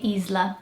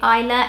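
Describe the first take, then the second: First: The name is said with a Portuguese accent. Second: The name is said with a British accent. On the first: "In Portuguese, you'd probably say Isla" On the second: "In British English, you say Isla"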